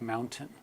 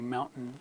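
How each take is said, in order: First: The T is pronounced as a full T. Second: The T is replaced by a glottal stop. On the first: "instead of mountain" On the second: "It's very common to say mountain"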